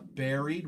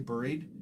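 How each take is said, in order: First: It is said rhyming with the fruit berry. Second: It is said with a Canadian-style vowel. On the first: "which is what most Americans would say" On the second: "I say more like the Canadian pronunciation"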